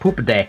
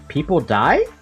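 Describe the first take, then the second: First: The name is read as if saying poop a day. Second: The name is read as if saying people die. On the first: The name sounds cute, like a puppy. "Instead of us English speakers who are like" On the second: The name sounds like a warning that people die. "who are not native English speakers, and were like"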